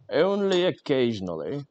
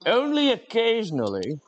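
First: Said in the usual way. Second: "Only occasionally" squeaked much higher, playful; mock squeak. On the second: Streamer joking the stream is only occasionally on fire, high mock squeak.

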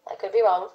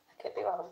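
First: Said in the usual way. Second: Much softer, tucked-away repeat; quiet aside. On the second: Real, not acted. Streamer hedging over the snail's name, softly aside. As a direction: drop the volume right down.

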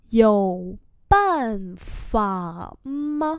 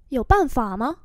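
First: Very slow, separated syllables; slow-motion pronunciation model; slow demonstration. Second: Said in the usual way. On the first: Shown as a demonstration. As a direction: draw out each tone for learners. Teacher repeats slowly for learners.

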